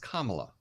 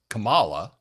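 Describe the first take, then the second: First: The name begins with a sound like 'comma'. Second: The name begins differently, not like 'comma'. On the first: The speaker calls it right. "It's Kamala, like comma" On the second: The speaker calls it wrong. "we all thought that her name was Kamala"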